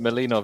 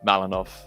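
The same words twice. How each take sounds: First: The name is pronounced in a softer way. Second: The name is pronounced in a harsher way. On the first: "is a bit softer" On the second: "obviously, more aggro"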